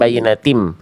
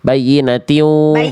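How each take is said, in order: First: The word ends with an m sound. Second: The word ends without an m sound. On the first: The speaker calls it wrong. "bukan bayinatim" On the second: The speaker calls it right. "tidak ada huruf mim Bunda"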